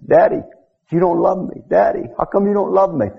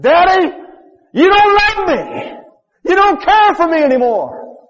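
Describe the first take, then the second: First: Put-on a touch of the boy's plea, a little higher; retold child's plea. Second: Put-on high, loud, slow anguished plea of a burned boy; retold child's cry. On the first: Preacher recalling the boy calling to his daddy, mildly pleading. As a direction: lightly echo the child's cry. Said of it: "We heard it over and over again". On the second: Burned boy crying out to his daddy from the board, high anguished wail. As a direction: wail it like a child in pain begging his father. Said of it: "And he cried out".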